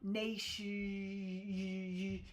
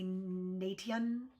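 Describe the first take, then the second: First: The middle consonant is an sh sound. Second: The middle consonant is a plain t sound. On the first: The speaker calls it right. "it makes that sh sound" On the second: The speaker calls it wrong. "you don't say nation"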